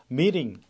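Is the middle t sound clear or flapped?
flapped. The middle t sounds like a quick r-like flap. "미국 발음에서는 우리나라 르, 요 발음 있죠? 그런 발음이 들리게 되죠. 그래서 meeting 이렇게 되고요"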